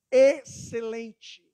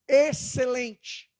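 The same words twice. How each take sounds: First: Excelente stretched slowly, each syllable held; slow emphatic Excelente; drawn-out excellent. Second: Excelente slow and held again; slow emphatic Excelente; drawn-out excellent. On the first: Relation with sister, drawn-out answer. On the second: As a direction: repeat Excelente, slowly and firmly. Repeats the same answer. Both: Acted.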